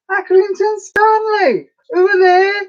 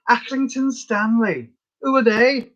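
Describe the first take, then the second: First: Very high, slow squeal in mock Scouse; squeaky over-the-top Scouse; badly faked accent. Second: Slow, higher put-on Scouse accent; drawn-out mock Scouse, pitched up; badly faked accent. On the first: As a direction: shriek it drawn out in a Liverpool accent. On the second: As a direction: do the old advert in a mock Liverpool accent. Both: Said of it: "So bad at accents".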